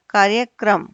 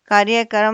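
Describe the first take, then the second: First: कार्यक्रम ending "kram"; k and r joined in कार्यक्रम; correct cluster. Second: कार्यक्रम ending "ka-ram"; extra vowel in कार्यक्रम's last cluster; wrong split cluster. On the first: Teacher corrects कार्यक्रम, ending "kram". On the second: Teacher shows wrong कार्यक्रम, ending "karam". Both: Shown as a demonstration. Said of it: "कार्यक्रम नहीं होता".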